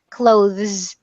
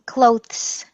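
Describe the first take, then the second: First: The 'th' sound is voiced, with throat vibration. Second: The 'th' sound is voiceless, without throat vibration. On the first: The speaker calls it right. "you want your throat to vibrate" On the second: The speaker calls it wrong. "which has no vibration, no voicing"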